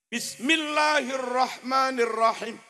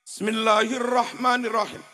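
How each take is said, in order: First: The opening bis is said clearly and distinctly. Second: The opening is slurred, sounding like semil. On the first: The speaker calls it right. "Piye sing bener?" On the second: The speaker calls it wrong. "contoh bismillah yang salah ... Semil"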